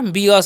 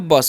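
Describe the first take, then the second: First: The b is said as its letter name. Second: The b is said as a plain sound. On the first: The speaker calls it wrong. "लेकिन क्या पढ़ना है इसे, ब ब पढ़ना है" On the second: The speaker calls it right. "ब ब पढ़ना है"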